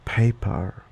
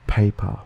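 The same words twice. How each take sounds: First: Paper with a British "er" ending; British accent. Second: Paper ending in a pure "ah", Australian; Australian schwa ending. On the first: Contrasting Australian with British accent, "er" ending. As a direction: say paper as British "pay-puh", r silent. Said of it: "In a common British accent". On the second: Listing Australian schwa examples, open "ah" ending. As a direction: say paper as Australian "pay-pah". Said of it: "like in the Australian accent". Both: Shown as a demonstration.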